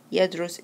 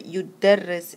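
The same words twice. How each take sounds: First: يدرس said as yadrus, a first vowel, no doubled consonant; يدرس as YAD-rus, short and plain; يدرس pronounced yadrus, the form one verb; form one pronunciation. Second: يدرس said as yudarris, u first vowel, doubled r; يدرس as yu-DAR-ris with the shadda held on r; يدرس pronounced yudarris, the form two verb; form two pronunciation. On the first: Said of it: "يدرس is a form one verb". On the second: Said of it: "يدرس is a form two verb". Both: Shown as a demonstration.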